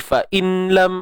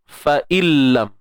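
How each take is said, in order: First: A slight n sound is heard before the l. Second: The n merges fully into the l, unheard. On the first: The speaker calls it wrong. "dia takkan bunyi fa'inlam, ada bunyi nun sikit ke, tak ada" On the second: The speaker calls it right. "kita dengar seolah-olah kita baca ni tak ada langsung bunyi nun tu"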